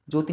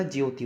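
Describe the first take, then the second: First: ज्योति said "joti", without the y glide; short "jo" start. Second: Said in the usual way. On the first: Shown as a demonstration. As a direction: drop the y from ज्योति, "jo-ti". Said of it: "नहीं होता". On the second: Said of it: "होती है".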